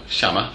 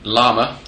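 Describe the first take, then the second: First: The name begins with an sh sound. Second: The name begins with an L sound.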